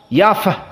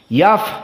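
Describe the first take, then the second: First: The f is released with audible breath escaping. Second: The same.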